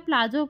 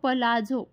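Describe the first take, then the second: First: The p and l are run together. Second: A vowel separates the p and l. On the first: This is how people commonly say it. The speaker calls it wrong. "आपण बोलताना तिला प्लाझो बोलतो" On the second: This is the actual pronunciation. The speaker calls it right. "Actual तिचा जो उच्चार आहे ना, तो असतो"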